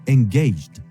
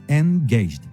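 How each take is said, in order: No difference in how they are said.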